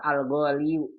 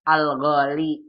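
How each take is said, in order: First: The word ends with an added 'u' sound. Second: The word ends on a plain 'i' sound. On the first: The speaker calls it wrong. "Nggak boleh" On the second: The speaker calls it right. "Sama seperti bilang apa?"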